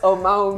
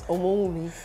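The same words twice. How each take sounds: First: The name is said with anglicized sounds. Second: The name is said with its native Yoruba sounds. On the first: The speaker calls it wrong. "Not Omowumi" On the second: The speaker calls it right. "my name is Omowumi"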